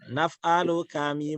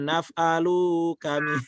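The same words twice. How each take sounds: First: The final syllable lu is kept short and level. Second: The final syllable lu is drawn out and swung. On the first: The speaker calls it right. "Naf'alu ya" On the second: The speaker calls it wrong. "bukan naf'alu kami. Jangan diayun lu-nya"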